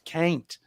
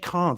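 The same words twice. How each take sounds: First: It is said with an American vowel. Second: It is said with a British vowel. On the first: "he says can't" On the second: "he doesn't say can't"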